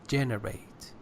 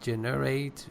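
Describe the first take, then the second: First: The stress is on the first syllable. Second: The stress is on the second syllable. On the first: The speaker calls it right. "First syllable" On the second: The speaker calls it wrong. "putting the stress on the second syllable"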